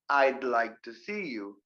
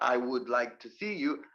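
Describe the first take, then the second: First: The words 'I would' are contracted to 'I'd'. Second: The words 'I would' are said in full. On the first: The speaker calls it right. "use the contraction" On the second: The speaker calls it wrong.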